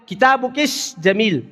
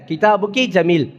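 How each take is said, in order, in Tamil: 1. பிரதிபெயரின் முடிவில் கூடுதலாக sh ஒலி உள்ளது. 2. பிரதிபெயரின் முடிவில் கூடுதல் sh ஒலி இல்லை. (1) "இது கஷ்கஷான்னு சொல்லுவாங்க" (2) "அசல் என்னது?"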